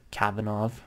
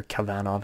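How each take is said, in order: First: Kavanov with the stress up front on KAV; stress on first syllable. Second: Kavanov with the stress on VAN; stress on second syllable. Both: Shown as a demonstration. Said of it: "however you wanna pronounce it".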